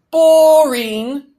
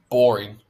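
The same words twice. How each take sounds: First: Loud, high, drawn-out singsong; cheerful toddler. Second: Said in the usual way. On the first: A narrator's reading. Toddler reacts to house-hunting, loud high cheerful cry. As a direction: belt it out gleefully like a little kid. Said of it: "said Sam cheerfully".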